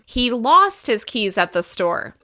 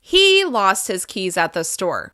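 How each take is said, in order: First: The word lost gets extra pitch emphasis. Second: The word he gets extra pitch emphasis. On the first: It clarifies what happened to the keys. "We can also emphasize the verb" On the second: It clarifies who lost the keys. "I might stress he more than the rest of the sentence"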